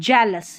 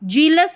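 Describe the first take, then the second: First: The first vowel is a short eh sound. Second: The first vowel is a long ee sound. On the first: The speaker calls it right. "नहीं जेलस" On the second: The speaker calls it wrong. "जीलस नहीं"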